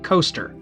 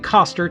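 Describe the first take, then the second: First: The name sounds like the word 'coaster'. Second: The name does not sound like 'coaster'. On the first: "I've also heard his name pronounced like Coaster" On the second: "that's how I'm pronouncing it"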